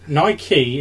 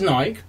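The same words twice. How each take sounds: First: The name is pronounced the American way. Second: The name is pronounced the non-American way. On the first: "Nike is how you pronounce it in America" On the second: "I'd usually pronounce it as Nike"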